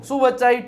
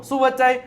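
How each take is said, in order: Both takes have the same delivery.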